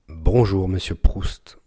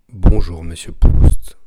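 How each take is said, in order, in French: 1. Aucun pop de souffle ne s'entend sur les plosives. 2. Des pops de souffle forts s'entendent sur les plosives. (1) "Avec grosse bonnette à poil" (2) "Test pop sans bonnette"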